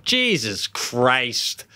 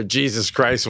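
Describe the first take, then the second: First: Very slow, stretched-out swear; drawn-out exclamation. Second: Said in the usual way. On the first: Retold or imitated. Father imitating daughter when a bike fell, drawn-out exclamation. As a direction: draw out both words in dismay. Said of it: "she gave a good".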